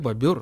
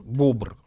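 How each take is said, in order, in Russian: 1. Слово произносится в два слога. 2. Слово произносится в один слог.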